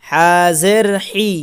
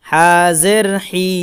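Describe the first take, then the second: No difference in how they are said.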